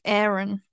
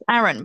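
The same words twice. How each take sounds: First: The name has an American pronunciation. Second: The name has a British pronunciation.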